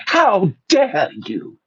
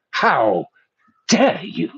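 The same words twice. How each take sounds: First: Slow, lightly voiced indignant teen activist; Greta imitation. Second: A light mock of an outraged teen activist; lightly voiced indignant "how dare you"; Greta imitation. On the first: Repeating Greta's line for the audience, slow mock indignation. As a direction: draw out "how dare you" slowly in mock outrage. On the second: Mocking Greta's speech to listeners, a lightly voiced impression. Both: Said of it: "that's my best Greta imitation".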